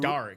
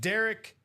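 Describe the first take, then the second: First: The first vowel is an A sound. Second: The first vowel is an E sound. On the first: The speaker calls it wrong. "Don't be like me and say" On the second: The speaker calls it right. "it's E"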